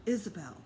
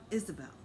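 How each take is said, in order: Both takes have the same delivery.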